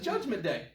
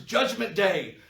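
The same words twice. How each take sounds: First: It is said in a happy, joyful tone. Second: It is said in a grim, dreadful tone. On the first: The day is something to look forward to. "You say it with a happy tone" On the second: The day is something to be feared. "We say it as a horrible thing"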